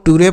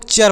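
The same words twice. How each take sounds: First: "टूरे" spelled out as too-ray; two syllables, hard T, "टूरे"; wrong reading. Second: "चर" as a short cher; correct reading. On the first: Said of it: "ना तो इसको आपको". ("टूरे" में कड़ा ट और अंत में रे) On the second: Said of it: "इसे आपको". ("चर" में च की ध्वनि, छोटा र) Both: Shown as a demonstration.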